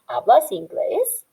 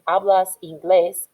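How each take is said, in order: First: The voice rises at the end, as a question. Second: The voice falls at the end, as a statement.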